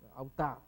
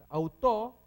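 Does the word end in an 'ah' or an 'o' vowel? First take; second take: ah; o. First: The final vowel sounds like 'ah'. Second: The final vowel is a clear 'o'. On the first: The speaker calls it wrong. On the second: The speaker calls it right.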